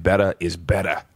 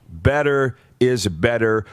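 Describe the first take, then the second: First: Low Boston accent imitation. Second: Said in the usual way. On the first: Radio host quotes famed football coach's motto, imitated Boston accent. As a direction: drop the R's like a Bostonian. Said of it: "in his Massachusetts Boston accent".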